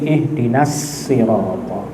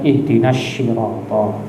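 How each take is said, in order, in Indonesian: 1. Kata 'sirata' diawali dengan bunyi 's' biasa. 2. Kata 'sirata' diawali dengan bunyi 'sh'. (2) "jangan dibaca shin"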